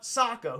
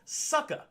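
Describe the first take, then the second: First: The first vowel is an open 'oh' sound. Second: The first vowel is an 'uh' sound. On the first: The speaker calls it right. "there's a goddamn O in front of that" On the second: The speaker calls it wrong. "Why are you making an uh sound"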